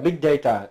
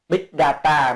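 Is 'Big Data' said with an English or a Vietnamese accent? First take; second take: English; Vietnamese. First: It is pronounced with an English accent. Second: It is pronounced with a Vietnamese accent. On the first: "Tiếng Anh gọi là Big Data" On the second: "tiếng Việt gọi là Big Data, mình nói tiếng Việt kiểu phát âm ấy"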